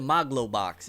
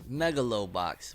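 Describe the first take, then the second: First: The name is said with three syllables. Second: The name is said with four syllables. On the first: The speaker calls it wrong. "why he called it Maglobox" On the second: The speaker calls it right. "it's Megalobox"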